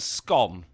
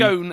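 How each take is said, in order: First: The vowel is short, rhyming with 'gone'. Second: The vowel is long, rhyming with 'cone'.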